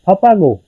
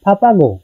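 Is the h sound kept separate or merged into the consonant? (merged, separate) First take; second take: merged; merged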